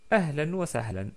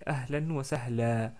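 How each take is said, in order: First: The last word ends in 'an' with final n. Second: The last word ends in a long 'a' vowel. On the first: "Ou ahlan wa sahlan, comme d'habitude" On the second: "on s'arrête avec un prolongement de fatha. Donc on dit ahlan wa sahla"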